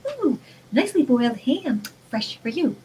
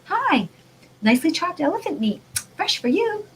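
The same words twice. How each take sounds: First: A lighter sing-song sales pitch; mock cheerful advert for ham; mock package voice. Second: High, bright sales-pitch voice, rising at the end; a mock advert that sells the meat; cheery package voice. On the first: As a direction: lightly voice the happy ham label. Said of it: "they're gonna say". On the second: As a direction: play a chirpy talking meat label. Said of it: "a package that says".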